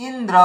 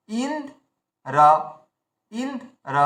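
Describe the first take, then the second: First: Said in the usual way. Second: Indra slowly, with a long gap before the final রা; split word. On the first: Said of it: "আমরা কি করছি". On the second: Shown as a demonstration. Teacher separates the first two letters, Indra broken in two. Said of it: "প্রথম দুটো বর্ণকে আলাদা করে নিচ্ছি".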